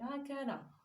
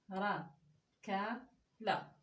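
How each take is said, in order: First: The syllables are joined quickly into one word. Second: Each syllable is said slowly and separately. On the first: "après il faut que vous lisez plus vite comme je l'ai fait" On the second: "il faut vraiment le lire tout doucement"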